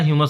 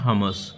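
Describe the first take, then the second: First: The word begins with a 'hyoo' sound. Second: The word begins with a 'huh' sound. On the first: This is the commonly used pronunciation. "ह्यूमस हम लोग बोलते हैं" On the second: This is the original pronunciation. "इसका original pronounce होता है हमस"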